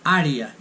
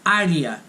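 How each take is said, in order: First: It is pronounced with Portuguese vowels. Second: The same.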